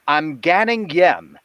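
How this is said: It is said in an RP accent.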